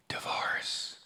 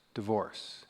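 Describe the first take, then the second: First: Breathy gossiping whisper. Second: Low soft gossip hush; soft half-voiced whisper. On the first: Retold or imitated. Dinner guest whispering gossip to the table. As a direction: hush it like juicy gossip. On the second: Guest at the dinner table hushing the word, half-whispered. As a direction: drop it quiet like a secret. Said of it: "the person whispers".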